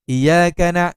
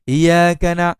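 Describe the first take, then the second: First: The doubled y sound is cut short. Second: The doubled y sound is cut short.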